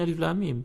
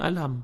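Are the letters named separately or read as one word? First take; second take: separately; one word. First: Each letter is named separately. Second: The letters are read together as one word. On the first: This is the reading at the start of Al-Ankabut. "permulaan surah Al-Baqarah ataupun surah yang sedang kita bincangkan Al-Ankabut sekarang, sebutannya Alif Lam Mim" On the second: This is the reading at the start of Al-Fil. "Tapi kalau pada surah Al-Fil, sebutannya Alam"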